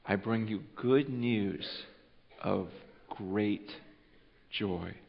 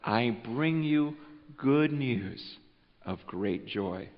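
First: Slow, soft, spaced out with pauses before great and joy; hushed, word-by-word savoring; savored phrase. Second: Slow, soft, low announcement; hushed angel voice bearing joy; tender proclamation. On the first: Shown as a demonstration. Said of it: "think about that phrase". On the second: Acted. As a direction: savor each word gently. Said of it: "he says".

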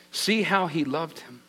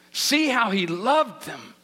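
First: Said in the usual way. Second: "loved" drawn out slowly and stressed; slow right down and lean on "loved"; slow, weighty stress on "loved"; emphatic repetition. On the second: Acted. Verse repeated for emphasis.

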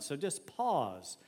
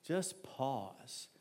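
First: Slow invitation. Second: Hushed, softer words after the sigh; soft demo pause. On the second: Pastor demonstrating a pause to the church, hushed. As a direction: say it gently, as if settling down. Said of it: "Watch me". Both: Shown as a demonstration.

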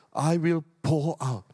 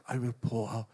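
First: Said in the usual way. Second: Said again much softer and lower; soft repeat. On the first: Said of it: "He says". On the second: Shown as a demonstration. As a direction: drop it to a near hush.

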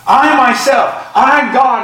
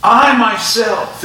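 First: "I myself, I God" higher and punched on I; emphatic. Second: "I myself" drawn out slowly, I leaned on; emphatic. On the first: Preacher proclaims God himself acts, ringing emphasis. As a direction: hit "I" hard in "I myself, I God". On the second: Preacher stresses God's own action to congregation, slow emphasis. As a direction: stretch "I myself" deliberately. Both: Shown as a demonstration. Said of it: "it's emphatic".

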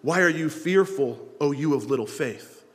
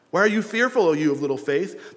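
First: Said in the usual way. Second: Emphatic rebuke. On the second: Retold or imitated. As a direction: press the rebuke hard on fearful. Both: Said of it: "And he said to them".

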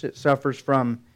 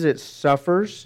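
First: Said in the usual way. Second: "suffers" drawn out slowly, ending on a rise; slow emphatic "it suffers" with a rising end; slow stressed suffers. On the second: Shown as a demonstration. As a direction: lean into "suffers" slowly, letting it hang.

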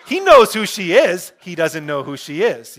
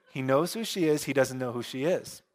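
First: Loud, emphatic. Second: Said in the usual way. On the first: Real, not acted. Preacher explains the movie joke over laughter, loudly emphatic.

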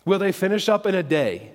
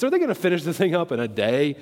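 First: Said in the usual way. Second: Quick, lightly mocking question. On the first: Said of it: "you can imagine him saying that". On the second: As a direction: toss it out as a mild taunt. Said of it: "saying that with a mocking voice".

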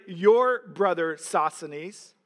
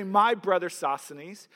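First: Your stressed, slow, rising at the end; YOUR brother, set against My. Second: My pushed forward, rising at the end; MY brother, said as the wrong version; stress on my. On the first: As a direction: slowly lean on Your. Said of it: "He does not say". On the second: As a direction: lean on the word My. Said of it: "Paul does not say". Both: Shown as a demonstration.

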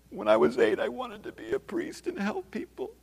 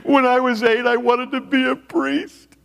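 First: Small, very high crying voice; mock tearful whimper. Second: Mock crying wail. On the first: Client crawling around in tears, mock whimpering. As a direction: squeak it out softly, imitating helpless sobbing. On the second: Man crying on the office floor, mock wailing. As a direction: wail it out like a grown man bawling. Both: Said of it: "crying and crawling around, going".

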